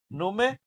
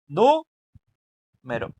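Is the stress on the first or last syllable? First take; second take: last; first. First: The stress is on the last syllable. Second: The stress is on the first syllable. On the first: "ero es la que decimos con más fuerza" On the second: "si pronunciamos nu con más fuerza, nos va a quedar nu, y lo demás lo decimos suave"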